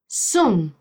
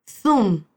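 First: "Zoom" with the z as a plain s; s sound. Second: "Zoom" with the z as th, tongue between the teeth; Castilian theta. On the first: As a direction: say "Zoom" as soom. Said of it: "Puedes hablar con el sonido de la S". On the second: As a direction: say "Zoom" as thoom, like Spain. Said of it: "con la lengua entre los dientes". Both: Shown as a demonstration.

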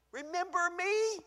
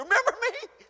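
First: Pleading. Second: Higher, louder, half-laughing demand; insistent. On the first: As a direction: ask gently to be remembered. Acted plea, softer take. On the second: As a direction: push God harder this time. Acted plea, louder take. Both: Acted.

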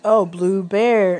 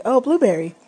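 First: Drawn-out, syllable by syllable "blue bear"; slow sounding out. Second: Higher, bright "Oh, blueberry" as it clicks; light imitation of a child getting it; happy realisation. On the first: Retold or imitated. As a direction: stretch "blue bear" slowly like reading it aloud. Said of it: "So I'm like". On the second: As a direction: daughter suddenly getting the word. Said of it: "And she was like".

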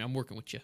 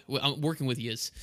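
First: Said in the usual way. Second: "yous" said as New York plural yous; joking New York yous. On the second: Shown as a demonstration. Host teases co-host about New York schooling, joking New York yous. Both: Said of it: "New York City school system here".

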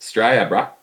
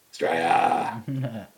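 First: Said in the usual way. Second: Slow, drawn-out Australian "Australia"; Aussie drawl. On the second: Shown as a demonstration. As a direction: stretch "Australia" out like a broad Australian. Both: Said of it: "that's how you say it".

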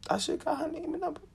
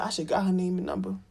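First: Same words pitched higher; high regretful repeat. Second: Said in the usual way. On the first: Shown as a demonstration. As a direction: say it again, higher and wistful.

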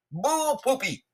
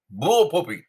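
First: Pitched way up, a squeaky mocking "Bull poopy"; mock Texas exclamation. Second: "Bull poopy" said louder and firmer, with a blunt fall; firm scoffing retort. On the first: Mocking the press secretary's border claim, high and squeaky. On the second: Retold or imitated. Dismissing the border figures with a firm scoffing retort. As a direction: slap it down with a scornful "Bull poopy". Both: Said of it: "that's what they say down in Texas".

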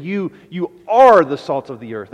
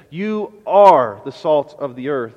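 First: Pressing the claim, "You, you are"; emphatic repeat. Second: Slow and firm, leaning on "are"; quoting Jesus with slow emphasis on "are"; emphatic quote. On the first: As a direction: punch "You, you" then land hard on "are". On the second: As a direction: declare "You are the salt of the earth" slowly, pressing on "are". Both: Acted. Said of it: "Jesus is making an emphatic claim".

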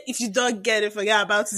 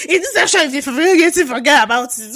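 First: Said in the usual way. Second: Mocking imitation, higher and louder, opening with "In this section"; mocking her co-host. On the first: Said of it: "You didn't even say". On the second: Teasing her co-host by mimicking his intro, higher and louder. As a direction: parrot her co-host's intro back at her, hammed-up. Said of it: "You say".

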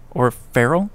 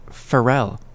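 First: Farrell with the stress on the first syllable, questioning; alternative pronunciation. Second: Farrell with the stress on the second syllable; Farrell, falling, as fa-RELL; alternative pronunciation. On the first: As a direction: say Farrell as FARR-ul, rising. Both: Shown as a demonstration.

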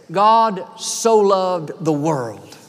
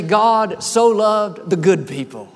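First: Each word slow and weighty, GOD stressed, falling at the end; slow scripture quote. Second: Slowish, stress on "so" with a falling end; "God so loved the good people" as a pointed wrong version; mock misquote. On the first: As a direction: lay out "God so loved the world" slowly, leaning on "God". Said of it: "The scripture says". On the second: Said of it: "It doesn't say". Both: Shown as a demonstration.

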